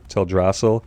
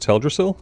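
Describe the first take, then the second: First: The a vowels are pronounced long. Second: The a vowels are pronounced short. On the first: The speaker calls it wrong. "I tend to pronounce Teldrassil with the long as" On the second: The speaker calls it right. "when it's usually pronounced"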